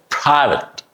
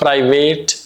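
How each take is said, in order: First: The second vowel is reduced and weak. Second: The second vowel is a full vowel. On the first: The speaker calls it right. "So the A is reduced" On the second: The speaker calls it wrong. "It's not private"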